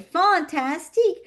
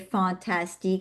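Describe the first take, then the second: First: The word is said with strong, lively emotion. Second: The word is said plainly, without emotion. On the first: "with the emotion" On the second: "I don't just say"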